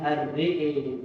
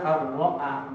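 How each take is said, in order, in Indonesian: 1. Vokalnya condong ke e. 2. Vokalnya bunyi a terbuka. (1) "dibaca dengan imana ar-re'e" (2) "Kalau kita ar-ro'a jelas hamzahnya"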